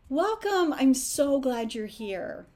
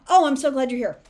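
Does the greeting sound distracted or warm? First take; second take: warm; distracted. First: It sounds warm and fully attentive. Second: It sounds hurried and distracted.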